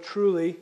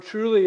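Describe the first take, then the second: First: Truly said firmly, a touch louder; emphatic word. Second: Truly punched hard, louder and higher; stress on truly. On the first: Preacher explaining the key word, firm. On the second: Preacher driving home the key word, punching it. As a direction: hit truly with full force. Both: Shown as a demonstration. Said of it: "The Lord's reply was an emphatic".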